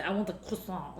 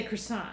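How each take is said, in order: First: French-style croissant dropped into an English order; softer order with the pastry in a French accent. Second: Croissant in everyday English, hard R; American pronunciation. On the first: Acted. Customer ordering at a bakery, French accent on croissant. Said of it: "like, a French accent". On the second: Shown as a demonstration. Ordering here in America, American pronunciation of croissant. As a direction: say "croissant" the American way, R clearly sounded. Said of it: "we say croissant".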